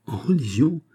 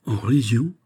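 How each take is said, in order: First: High-pitched, swooping incredulous question; startled exclamation. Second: Mildly raised, questioning cry; astonished exclamation. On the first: King interrupting the ambassador's speech, startled cry. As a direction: burst in with a higher, shocked echo. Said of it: "s'écria le roi au milieu du discours". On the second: Saint-Aignan to D'Artagnan on hearing the news, astonished. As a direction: echo the news in mild astonishment. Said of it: "s'écria de Saint-Aignan". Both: A narrator's reading.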